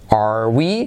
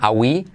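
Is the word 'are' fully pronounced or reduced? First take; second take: full; reduced. First: The word 'are' is said in full. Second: The word 'are' is reduced and nearly dropped.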